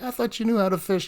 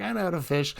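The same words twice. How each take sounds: First: Higher-pitched mock taunt; imitated teasing. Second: Higher, softer mock protest; imitated upset retort. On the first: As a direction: tease her, imitating the guy. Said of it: "the guy was kinda making fun of her". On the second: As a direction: play her miffed comeback lightly. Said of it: "she was getting upset".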